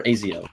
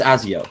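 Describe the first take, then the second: First: "Azio" opening with the vowel of "day"; long-a pronunciation. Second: "Azio" opening with the a of "cat"; short-a pronunciation. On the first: Host offers another team-name version, "Azio" as AY-zee-oh. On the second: Host unsure of a team's name, "Azio" as AZ-ee-oh. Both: Shown as a demonstration. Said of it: "however you pronounce that".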